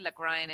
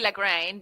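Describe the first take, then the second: First: It is pronounced the German way, not as spelled. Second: It is pronounced the Italian way, as spelled. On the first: The speaker calls it right. "but it's it's actually Lagrein, and, and it's a Germ- Germanic name" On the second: The speaker calls it wrong. "Italians would say Lagrein because that's what you how it's spelled"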